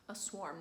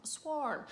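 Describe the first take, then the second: First: "swarm" said with a plain s, soft; "swarm" as s-warm, quietly, the wrong way. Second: "swarm" with an sh sound, higher; right swarm. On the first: Correcting herself on the word, "swarm" with plain s. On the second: Correcting herself, "swarm" as shwarm with higher pitch. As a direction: say "swarm" as shwarm, bright and emphatic. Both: Shown as a demonstration. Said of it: "not a swarm".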